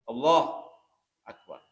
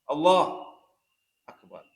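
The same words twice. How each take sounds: No difference in how they are said.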